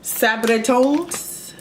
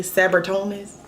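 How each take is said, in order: First: Sabritones drawn out slowly, rising at the end; careful try at the name. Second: Sabritones said quick and loose, r-colored middle. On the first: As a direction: spell out Sabritones slowly, syllable by syllable. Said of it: "I never say it right". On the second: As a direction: toss off Sabritones the casual way. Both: Shown as a demonstration.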